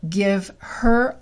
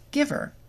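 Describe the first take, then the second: First: The h in her is fully pronounced. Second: The h is dropped and the words link.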